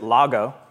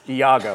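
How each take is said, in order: First: The name begins with an L sound. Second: The name begins with a vowel sound. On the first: The speaker calls it wrong. "pronounced it Lago, which was wrong" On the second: The speaker calls it right. "I learned it's Iago"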